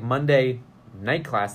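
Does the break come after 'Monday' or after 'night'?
after Monday. A break falls after the word Monday. It is a night class held on Monday. "like a night class on Monday"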